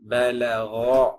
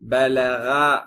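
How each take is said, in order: First: The final vowel is a dark, o-like sound. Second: The final vowel is a clear, open a. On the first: The speaker calls it right. "பலகோ அப்படி சொல்லணும்" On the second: The speaker calls it wrong. "பலகா அப்படி சொல்லக்கூடாது"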